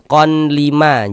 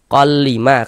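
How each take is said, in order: First: An n sound is heard before the l. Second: The n merges fully into the l sound. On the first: The speaker calls it wrong. "jangan dibaca kon" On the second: The speaker calls it right. "tapi dibaca kol"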